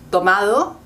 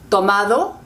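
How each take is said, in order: The two takes are said the same way.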